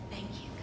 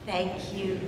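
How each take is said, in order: First: The words are whispered very softly. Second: The words are spoken a little louder. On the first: "Let's just whisper together" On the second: "Lift your voice just a little bit"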